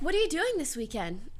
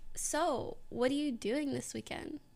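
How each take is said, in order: First: It is said in a plain, ordinary voice. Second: It is said in a Valley Girl voice.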